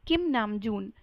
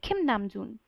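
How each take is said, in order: First: The first sound is a plain, unaspirated k. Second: The first sound is a breathy, aspirated k. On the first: The speaker calls it wrong. "ना कि किम नामजून, जो कि बहुत गलत है" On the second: The speaker calls it right. "उसको हम प्रोनाउंस करेंगे खिम नामजून"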